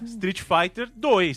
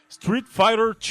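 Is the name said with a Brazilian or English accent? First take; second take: Brazilian; English. First: The name is said with a Brazilian pronunciation. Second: The name is said with an English pronunciation. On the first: "eu falo do jeito que eu falava" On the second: "não vou falar"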